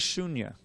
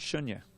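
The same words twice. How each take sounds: First: The first vowel is held long. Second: The first vowel is cut short. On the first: The speaker calls it right. "The word is shunya. ... It's long U" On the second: The speaker calls it wrong. "It's not shunya"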